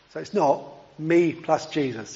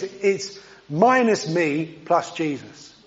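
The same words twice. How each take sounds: First: Said in the usual way. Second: Slow, with "minus" pressed hard; a slow, deliberate correction that hangs on "minus"; stress on minus. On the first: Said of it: "I'm trying not to use too many double negatives here". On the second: Shown as a demonstration. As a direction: lean on "minus" and let "me plus Jesus" follow slowly. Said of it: "So if you think about you plus Jesus".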